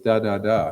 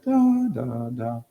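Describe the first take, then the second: First: All three syllables are on a similar pitch. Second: The first syllable is clearly higher than the rest. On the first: The speaker calls it wrong. "It was da da da" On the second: The speaker calls it right. "the first tone is a perfect fifth higher"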